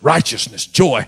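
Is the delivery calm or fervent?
fervent. It is said with fervent, heartfelt emotion. The speakers truly felt it. The speaker calls it right. "They said it like this: ... Because they felt it"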